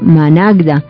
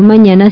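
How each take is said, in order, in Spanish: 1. Las consonantes del medio forman el grupo 'gd'. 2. La consonante del medio es el sonido 'ñ'. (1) "sino que le decimos managda" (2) "no le decimos mañana"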